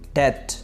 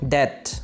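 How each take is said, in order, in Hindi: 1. इस शब्द में 'b' ध्वनि मूक है। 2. इस शब्द में 'b' ध्वनि मूक है।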